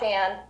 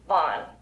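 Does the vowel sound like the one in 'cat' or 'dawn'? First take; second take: cat; dawn. First: The vowel sounds like the one in 'cat'. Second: The vowel sounds like the one in 'dawn'. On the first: The speaker calls it right. "not Van" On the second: The speaker calls it wrong. "they were saying Councilmember Vaughn"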